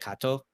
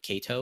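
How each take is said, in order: First: The ending is said in a Japanese-style way. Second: The ending is said in an English-style way. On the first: This is how the speaker says it. "I say like uh, [name]" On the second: This is how most people say it. "most people would say probably Kato"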